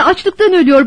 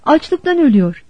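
First: Raised, higher, urgent voice; insistent narrated outburst; sudden shout. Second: Said in the usual way. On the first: A narrator's reading. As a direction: cry it out as a boy pleading for help. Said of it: "Çocuk birden bağırdı".

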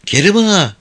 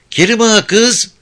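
First: Sweet coaxing call, falling; coy call. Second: Higher, louder coaxing call with rise; coy rising call. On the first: (nazlı nazlı seslenerek) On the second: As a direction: call again, sweeter and higher. (nazlı, yükselen seslenme) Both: Acted. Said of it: "Güldane nazlı nazlı seslendi".

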